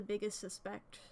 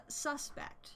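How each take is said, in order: First: "suspect" stressed on its second syllable; verb-like stress. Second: "suspect" stressed on its first syllable; noun stress. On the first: Real, not acted. Streamer slipping on a noun, "suspect" stressed sus-PECT. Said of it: "I turned that from a noun into a verb". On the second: Shown as a demonstration. Streamer correcting own slip, "suspect" stressed slowly as SUS-pect. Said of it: "it just depends on the emphasis".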